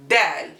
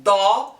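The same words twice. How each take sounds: First: Dal with a light ordinary d; plain d. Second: Da with a fat, heavy d; emphatic d. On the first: Teacher models plain dal beside emphatic Da. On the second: Teacher models the emphatic Da for learners. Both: Shown as a demonstration. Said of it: "da is an emphatic consonant".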